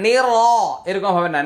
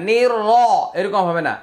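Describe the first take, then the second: Both takes have the same delivery.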